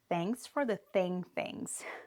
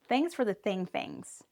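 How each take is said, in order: First: The phrase is said at a slow pace. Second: The phrase is said at a fast pace. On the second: "But now faster"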